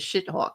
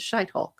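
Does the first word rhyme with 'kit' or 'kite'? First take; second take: kit; kite. First: The first word has a short 'i' vowel. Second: The first word has a long 'eye' vowel. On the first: The speaker calls it wrong. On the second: The speaker calls it right.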